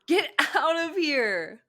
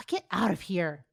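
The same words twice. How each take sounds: First: Loud slow shout. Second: Mock bossy order; authoritative bark. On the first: Acted. Shouting at boyfriend. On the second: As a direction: order him out like a best friend. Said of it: "Ino's authoritative bark".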